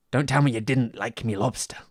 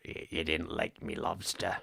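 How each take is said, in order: First: Shouted gruff sailor line; louder, rough sailor take. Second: Low, slow sailor voice; lower, slower take on the sailor line; deeper Dafoe attempt. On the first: Retold or imitated. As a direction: belt it like a sea captain. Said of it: "I fucking love that line". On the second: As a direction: drop the voice and drag it out. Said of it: "get more Defoe".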